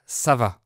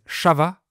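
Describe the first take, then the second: First: Said in the usual way. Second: CHAVA, sh opening for ça va; S turned into sh. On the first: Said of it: "pour dire ça va". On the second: Shown as a demonstration. Teacher showing how they greet, sh sound in CHAVA. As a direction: say CHAVA with sh in place of s. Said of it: "ils disent chava pour dire ça va".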